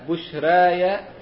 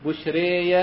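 First: The long vowel sits between a and e. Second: The long vowel is bent strongly toward e. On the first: "والتقليل" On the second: "والإمالة"

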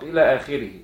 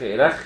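First: It is read as the full two-word phrase. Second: It is read as one short clipped syllable. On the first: The speaker calls it right. "بترسم هكذا وتنطق إلى آخره" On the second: The speaker calls it wrong. "لو حد نطقها وإلخ إلخ ... يبقى غلطان"

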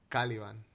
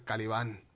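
First: The name is pronounced the English way. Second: The name is pronounced the Spanish way. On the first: The speaker calls it wrong. "como si lo dices en inglés, que es como lo dicen en la peli" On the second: The speaker calls it right. "Y en español es"

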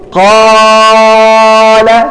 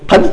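First: The long vowel is stretched beyond normal length. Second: The long vowel is cut short. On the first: "هل يمكن أن تقول قال؟" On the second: "هل يمكن أن تنقص عن الحركتين؟"

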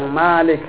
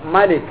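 First: The first vowel is held long. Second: The first vowel is kept short. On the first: It means the one who owns. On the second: It means the one who rules.

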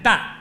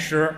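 First: The syllable is pronounced dan. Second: The syllable is pronounced shi. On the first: It is the reading used when weighing grain. "担，一担两担的担" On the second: It is the everyday reading of the character. "不念石"

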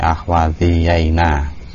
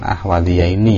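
First: The final nun is said with an 'a' vowel. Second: The final nun is said with an 'i' vowel. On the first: This is an irregular form used in poetry. "huruf nunnya dibaca fathah" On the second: This is the regular dual form. "normalnya kan ahwadiyaini ya"

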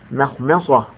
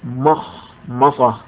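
First: The m sounds are light and thin. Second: The m sounds are heavy and emphatic. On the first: The speaker calls it right. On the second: The speaker calls it wrong.

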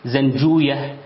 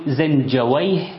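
First: The name ends in a long 'ooyah' sound. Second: The name ends in an 'awayh' sound. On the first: It follows how native Persian speakers said it. "فأهل الحديث يقرؤونها كما ذكرتها لكم" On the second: It follows the Arabic interjection wayh. "أما أهل اللغة فيقولون"

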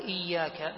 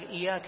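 First: The y sound is held long and doubled. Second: The y sound is short and single. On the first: The speaker calls it right. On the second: The speaker calls it wrong.

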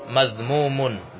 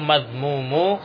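First: The word ends in an un sound. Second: The word ends in a bare u vowel. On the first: The speaker calls it right. "dia dengan tanwin" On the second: The speaker calls it wrong.

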